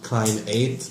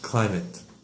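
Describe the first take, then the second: First: The second syllable has a long 'eight' vowel. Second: The second syllable has a short, reduced vowel. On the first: The speaker calls it wrong. "It's not a long A, like eight" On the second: The speaker calls it right. "No, it's uh, climate"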